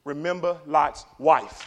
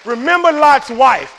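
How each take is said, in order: First: Three words set down slowly; slow and measured. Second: Slow, high, loud preacher's cry; shouted warning. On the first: Preacher gives three words of warning, slow and measured. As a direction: deliver it slowly, word by word. First, measured take before shouted repeat. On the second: Preacher warns against looking back, slow shouted warning. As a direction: hurl the warning at the congregation. Repeats the warning at full force. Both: Real, not acted.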